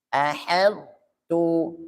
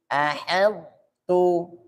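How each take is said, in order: No difference in how they are said.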